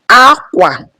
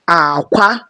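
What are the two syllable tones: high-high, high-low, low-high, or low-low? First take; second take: high-low; low-high. First: The first syllable is high, the second low. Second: The first syllable is low, the second high. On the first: It means cloth. "which is high, low" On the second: It means egg. "low, high"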